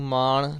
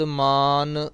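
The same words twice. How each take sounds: First: ਮਾਣ said with a retroflex ਣ, the mistake to avoid; wrong pronunciation. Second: ਮਾਨ said with a dental n, like ਨੰਨਾ; correct pronunciation. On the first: Teacher warning students off the retroflex ਮਾਣ. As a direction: show the wrong ਮਾਣ, tongue curled back on the ਣ. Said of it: "ਇਹਨੂੰ ਮਾਣ ਨਾਣਾ ਨਹੀਂ ਲਾਉਣਾ". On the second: Teacher showing the right ending of ਮਾਨ, with a dental n. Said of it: "ਸ਼ਬਦ ਮਾਨ ਨੰਨੇ ਦੇ ਨਾਲ". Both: Shown as a demonstration.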